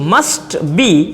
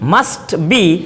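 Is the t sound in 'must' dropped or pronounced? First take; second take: pronounced; pronounced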